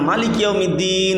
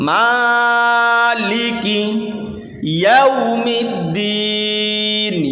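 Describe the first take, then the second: First: The first vowel of maliki is short. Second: The first vowel of maliki is drawn out. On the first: The speaker calls it wrong. "এরকমভাবে পড়ে যাবেন না" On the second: The speaker calls it right. "একালিপ টেনে পড়বেন"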